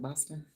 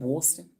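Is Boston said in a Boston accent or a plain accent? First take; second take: plain accent; Boston accent. First: It is said with a plain accent. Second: It is said with a Boston accent. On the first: "instead of" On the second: "They talk like this in Boston"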